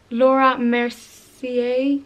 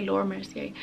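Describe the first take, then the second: First: "Laura Mercier" said slowly, ending "mer-see-ay" unsure; careful pronunciation. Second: "Laura Mercier" said quickly and softly, ending "mer-see-ay"; quick pronunciation. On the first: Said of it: "Am I saying that right?". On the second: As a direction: toss off "Laura Mercier" fast and quiet. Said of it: "Some people pronounce it different". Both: Shown as a demonstration.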